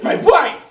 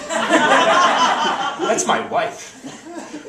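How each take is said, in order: First: Loud, high burst on "wife"; hammed-up protective husband yell; indignant shout. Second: Drawn-out, high indignant warning; tough protective husband. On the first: Husband confronts mugger going for wife, shouting indignantly. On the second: Acted. Husband confronts mugger going for wife, indignant. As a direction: stake your claim, stretching it out.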